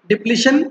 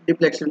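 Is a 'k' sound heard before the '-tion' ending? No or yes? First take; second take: no; yes. First: No 'k' sound comes before the ending. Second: A 'k' sound comes before the ending. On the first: This is the correct name. The speaker calls it right. "डिप्लीशन method होना चाहिए" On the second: This is how many people say it. The speaker calls it wrong. "कई बोलते हैं डिप्लेक्शन"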